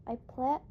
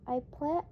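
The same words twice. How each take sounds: The two takes are said the same way.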